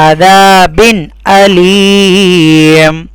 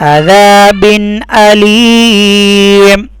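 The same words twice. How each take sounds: Both takes have the same delivery.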